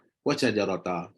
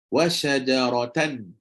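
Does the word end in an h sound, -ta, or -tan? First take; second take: -ta; -tan. First: The word ends with a short -ta vowel. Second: The word ends with a nasal -tan sound. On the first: "kita takkan tukar jadi" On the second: "Memang tanwin tu masuk"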